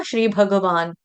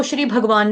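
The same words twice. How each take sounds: First: भगवान said as bha-ga-vaan, ग fully voiced; three clear syllables in भगवान, bha-ga-vaan; full ga syllable. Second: भगवान said as bhag-vaan, no vowel after ग; quick everyday भगवान with a half ग; clipped-vowel mispronunciation. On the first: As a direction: give ग its own vowel in भगवान. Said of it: "ग को पूरा गाना है ना". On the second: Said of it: "इसको श्री भगवान नहीं बोलेंगे". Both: Shown as a demonstration.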